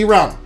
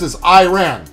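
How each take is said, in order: First: The first vowel sounds like 'ee', not 'eye'. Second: The first vowel sounds like 'eye', as in iron. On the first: This is how people outside the U.S. say it. "They don't say Iran" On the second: This is how Americans say it. "That's what everybody says in the U.S"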